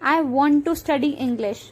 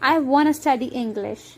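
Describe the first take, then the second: First: Want to is said in full. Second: Want to is reduced to wanna.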